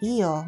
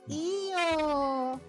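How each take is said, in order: First: It sounds like a polite refusal. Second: It sounds wistful, accepting but disappointed. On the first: No thanks, I'm fine. "That feels like no thanks or I'm fine" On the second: I want it, but not getting it now is okay. "That feels like I want it, but it's okay to not get it now"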